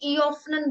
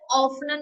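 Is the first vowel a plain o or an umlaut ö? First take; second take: umlaut ö; plain o. First: The first vowel is a rounded umlaut ö sound. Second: The first vowel is a plain o sound. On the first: The speaker calls it right. "ईऑफनन बोल रहे हैं" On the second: The speaker calls it wrong. "हम इसे ऑफनन नहीं"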